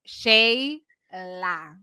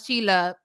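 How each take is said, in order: First: The first vowel sounds like 'ay'. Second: The first vowel sounds like 'ee'. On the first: The speaker calls it right. "It's Shayla" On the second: The speaker calls it wrong. "not Sheila"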